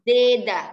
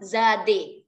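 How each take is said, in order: First: The first syllable is said with an 'e' sound. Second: The second syllable is said with an 'e' sound. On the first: The speaker calls it right. "Zeda, bukan zade, tapi zeda" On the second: The speaker calls it wrong. "bukan zade"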